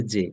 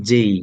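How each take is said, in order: First: "জে" with one short pure vowel, no glide; local-style "জে" without the y-glide; everyday local J. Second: "জেই" with the vowel gliding from e to i; demonstrated "জেই" ending in a y-glide; corrected J. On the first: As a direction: end "জে" on a simple e. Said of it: "আমরা বলি জে". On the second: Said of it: "না, এটা জেই". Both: Shown as a demonstration.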